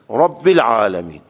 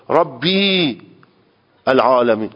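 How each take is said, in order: First: The vowel after the first word is short. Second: The vowel after the first word is long. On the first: The speaker calls it right. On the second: The speaker calls it wrong.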